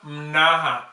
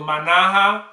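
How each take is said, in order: First: The first vowel is dropped after the first consonant. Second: A full vowel follows the first consonant.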